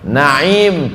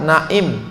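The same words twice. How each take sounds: First: The middle sound is a deep throaty ain. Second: The middle sound is a plain glottal stop. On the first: It means blessings. "Naim pakai ain" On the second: It means sleeping. "kalau pakai hamzah"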